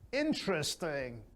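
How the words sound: The voice goes up high and loud. The listener is genuinely interested. The speaker calls it right. "your voice should go up and high"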